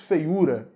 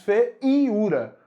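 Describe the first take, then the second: First: The I sound is weak, like a glide. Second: The I sound is strong, like a full vowel. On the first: The speaker calls it right. "O I é semivogal porque é fraco. ... você diz feiura" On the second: The speaker calls it wrong. "Você não diz feiura"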